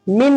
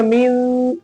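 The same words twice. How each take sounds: First: Said in the usual way. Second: "मिन" with the n hummed through the nose; ghunna. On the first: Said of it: "मिन नहीं पढ़ेंगे". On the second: Shown as a demonstration. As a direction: hold a nasal hum on the end of "मिन". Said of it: "ऐसे गुन्ना करके".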